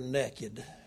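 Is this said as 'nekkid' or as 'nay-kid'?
nekkid. It is said in a Texan way, like 'nekkid'. They were bare in a stronger, more forceful sense. "they were naked"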